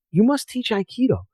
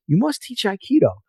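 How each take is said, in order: First: Higher, earnest plea to teach Aikido; imitating an old sensei begging him; pleading Japanese master. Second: Higher, pressing the plea once more; an old sensei imitated, urging harder; insistent repeated plea.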